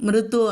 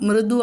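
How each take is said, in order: No difference in how they are said.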